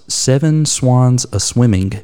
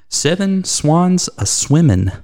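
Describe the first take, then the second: First: The final G of swimming is clearly pronounced. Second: The final G of swimming is left off. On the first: The speaker calls it right. "Notice the emphasis there. At the end of swimming, there's apparently a G" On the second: The speaker calls it wrong. "dropped the G in her answer"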